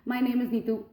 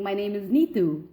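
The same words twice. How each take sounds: First: The pitch stays level on the final word. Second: The pitch drops on the final word. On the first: The speaker calls it wrong. "just leave it there, you know, without any pitch variation" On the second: The speaker calls it right. "I would drop my pitch at the end"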